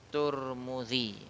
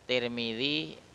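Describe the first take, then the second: First: The first syllable has the vowel u. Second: The first syllable has the vowel i. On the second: "Tirmidzi boleh dibaca tiga jalan"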